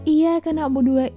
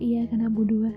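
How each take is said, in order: First: The y sound is held long and doubled. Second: The y sound is short and single. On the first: We worship only You. The speaker calls it right. "dengan tasydid jadi dalam gitu" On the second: We worship only the sun. The speaker calls it wrong. "kalau misalnya kita baca salah"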